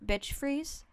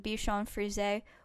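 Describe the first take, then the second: First: The breed name is said like 'bitch freeze'. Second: The breed name is said in its usual form.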